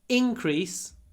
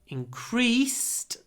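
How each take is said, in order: First: The stress is on the first syllable. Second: The stress is on the second syllable. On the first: It is used as a noun. "stress is on the I when it's a noun" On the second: It is used as a verb. "stress is on the E when it's a verb"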